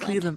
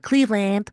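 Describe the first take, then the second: First: It is said in her own plain accent. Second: It imitates Casey Cott's Ohio accent.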